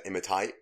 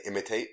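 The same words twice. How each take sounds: First: "imitate" with the last syllable like "tight"; mispronounced imitate. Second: Said in the usual way. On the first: Reporting co-host's slip before recording, "imitate" said as "imi-tight". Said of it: "for some reason she said imitate". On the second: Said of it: "she was meant to say imitate".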